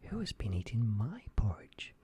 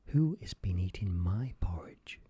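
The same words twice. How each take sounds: First: It is said in a medium-sized voice. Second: It is said in a very loud voice.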